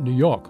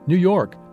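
First: The R at the end of York is dropped. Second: The R at the end of York is pronounced. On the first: The speaker calls it wrong. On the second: The speaker calls it right. "simply pronounce his R's"

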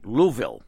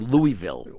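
First: It is pronounced the way locals say it. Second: It is pronounced the way outsiders say it. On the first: This is how residents of the city say it. The speaker calls it right. "we know you're a local because you say it right" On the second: This is how people from elsewhere say it. The speaker calls it wrong. "as we say"

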